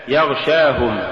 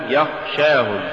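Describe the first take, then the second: First: Said in the usual way. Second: "يخشاهم" with unvoiced kh replacing gh; ghayn becomes kha. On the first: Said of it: "استبدال الغين بالخاء". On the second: Shown as a demonstration. Teacher showing an error, "يخشاهم" said with kha for ghayn. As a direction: devoice gh, giving "يخشاهم". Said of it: "تقرأ لحنا".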